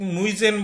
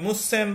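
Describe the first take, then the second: First: The middle consonant is a buzzing z sound. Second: The middle consonant is a hissing s sound. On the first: The speaker calls it wrong. "আমি মুইজেন বলবো না" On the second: The speaker calls it right. "আমি মুসেন বলবো"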